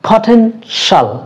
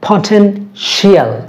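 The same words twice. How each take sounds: First: The ending is one syllable, 'shal'. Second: The ending is two syllables, 'shee-al'. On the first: The speaker calls it right. "That mean শাল" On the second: The speaker calls it wrong. "It's not পটেনশিয়াল"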